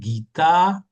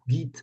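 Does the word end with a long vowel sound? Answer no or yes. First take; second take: yes; no. First: The word ends with a long final vowel. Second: The word ends on the consonant, with no final vowel. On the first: The speaker calls it right. "c'est un A long" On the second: The speaker calls it wrong. "Il n'y a aucune raison qu'on dise Git"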